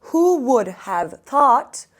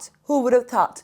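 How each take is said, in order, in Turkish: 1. Cümle yavaş söyleniyor, kelimeler birbirinden ayrı. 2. Cümle hızlı söyleniyor, kelimeler birbirine karışıyor. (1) "Böyle gittikçe daha hızlı söyleyin" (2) "Çünkü birleştiriyorlar bu şekilde"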